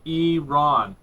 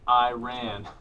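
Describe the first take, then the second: First: The word begins with an 'ee' sound. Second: The word begins without an 'ee' sound. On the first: The speaker calls it right. "he wrote E E hyphen R A N. He pointed at it and he goes" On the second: The speaker calls it wrong. "not Iran"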